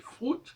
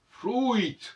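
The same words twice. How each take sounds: First: It is said with an English vowel sound. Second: It is said with an 'ou' glide before 'i'. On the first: This is the modern English form. "ça se dit en anglais fruit" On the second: This is how French pronounced it originally. "initialement en français, ça se prononçait fruit, fruit, avec le OU"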